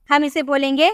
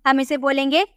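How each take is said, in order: Both takes have the same delivery.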